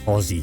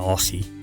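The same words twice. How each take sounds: First: It is said with the Australian pronunciation. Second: It is said with the American pronunciation. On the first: The speaker calls it right. "I am an Aussie" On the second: The speaker calls it wrong. "I'm not an Aussie"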